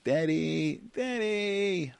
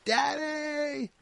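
First: High, routine nagging "Daddy"; mock-child pestering without real feeling; emotionless child's call. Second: Very high, drawn-out urgent cry; imitated piercing kid's plea; heartfelt child's scream. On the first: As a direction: repeat it by rote in a kid voice, no urgency. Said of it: "words that I say are meaningless and emotionless". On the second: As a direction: call out desperately for Dad from the heart. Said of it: "totally different". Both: Shown as a demonstration.

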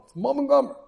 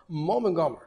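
First: "Gomer" lifted high and stressed; emphatic statement. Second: Said in the usual way. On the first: Shown as a demonstration. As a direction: land hard on "Gomer" as the key point.

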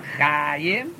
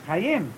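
First: Chayim as CHAAA-yim, first syllable drawn out slowly; exaggerated CHAA-yim, accent too early; wrong first-syllable stress. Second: Chayim as cha-YIM, stress on the last syllable; quick CHA, accented YIM in Chayim; cha-YIM, said short with the accent at the end; correct final stress. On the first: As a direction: stretch and stress the CHA of Chayim. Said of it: "It's not Chayim". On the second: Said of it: "it's Chayim". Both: Shown as a demonstration.

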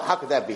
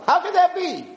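First: Said in the usual way. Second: Much higher, incredulous 'How could that be?'; 'How could that be?' pitched high as amazed wonder; mock astonishment. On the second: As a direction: squeak 'How could that be?' in awed disbelief. Acted amazed version.

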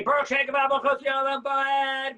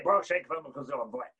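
First: Loud, high, slow chanted proclamation. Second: Said in the usual way. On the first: Shown as a demonstration. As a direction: call it out proudly like an angel. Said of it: "We say it out loud". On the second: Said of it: "we say it quietly".

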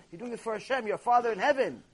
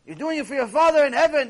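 First: Said in the usual way. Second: Louder, pressing on "Father" in "your Father in heaven"; forceful repeat. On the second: Acted. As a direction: hammer home "Father". Repeats line with more force.

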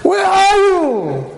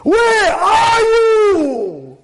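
First: High, drawn-out angry call; flipping out. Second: High, slow, drawn-out shout; flipping out. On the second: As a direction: stretch out a furious yell. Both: Acted. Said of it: "about to flip out on his wife".

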